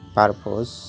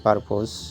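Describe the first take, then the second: No difference in how they are said.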